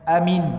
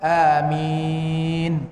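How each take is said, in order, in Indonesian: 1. Vokalnya dibaca sangat pendek. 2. Vokalnya dibaca dengan panjang sedang. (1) "pendek sangat-sangat tu" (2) "dua harakat"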